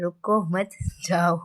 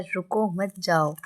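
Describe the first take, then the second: First: "रुको मत" run together, long break, then "जाओ"; pause after मत. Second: "रुको" set apart, then "मत जाओ" together; pause after रुको. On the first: Teacher's misunderstanding retold, slow, pause after "मत". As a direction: break after "मत" so it means go, a laugh slipping in. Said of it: "और वो पता है क्या समझे". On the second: Children calling to the teacher, slow, pause after "रुको". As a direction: break after "रुको" so it means don't go. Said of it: "बच्चों ने उनको बोला है". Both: Shown as a demonstration.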